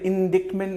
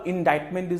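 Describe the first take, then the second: First: Indictment said with the c sounded, in-DIKT-ment; spell-pronounce indictment as in-DIKT-ment with a hard k; wrong pronunciation. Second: Indictment with a silent c, in-DITE-ment; correct pronunciation. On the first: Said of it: "इसका pronunciation थोड़ा सा सही कर ले". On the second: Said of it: "indictment नहीं होगा". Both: Shown as a demonstration.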